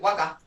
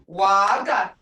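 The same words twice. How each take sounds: First: The vowel sound is cut short. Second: The vowel sound is held long. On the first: The speaker calls it wrong. "You can't say waga" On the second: The speaker calls it right. "That's long"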